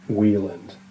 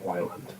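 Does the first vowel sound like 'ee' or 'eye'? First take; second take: ee; eye. First: The first vowel sounds like 'ee'. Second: The first vowel sounds like 'eye'. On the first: The speaker calls it right. "the author's last name is pronounced Wieland" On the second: The speaker calls it wrong. "not Weiland"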